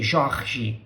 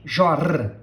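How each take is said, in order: First: The R is said the Rio de Janeiro way. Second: The R is said the southern Brazilian way. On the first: This is how people from Rio say it. "They say Jorge" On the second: This is how people from the south say it. "but we say Jorge"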